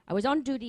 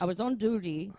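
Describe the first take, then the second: First: The voice is pitched higher. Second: The voice is pitched lower.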